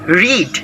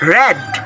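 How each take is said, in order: First: It is said with the base-form pronunciation. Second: It is said with the past-form pronunciation. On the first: The verb is in its base form. The speaker calls it wrong. "not read" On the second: The verb is in the past tense. The speaker calls it right. "it varies to the pronunciation when it is past simple or, or past participle. So it should be read"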